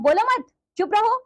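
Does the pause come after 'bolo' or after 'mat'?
after mat. The pause comes right after the second word. The listener should not speak. "ये आपको नहीं बोलना है"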